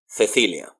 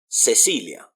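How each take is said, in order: First: The c is said like a th sound. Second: The c is said like an s sound. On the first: "People in Spain ... pronounce it more like a th" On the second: "it sounds like an S"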